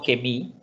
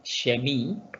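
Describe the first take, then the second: First: The word begins with a hard k sound. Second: The word begins with a sh sound. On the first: The speaker calls it wrong. "no kemi" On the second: The speaker calls it right. "sino shemi"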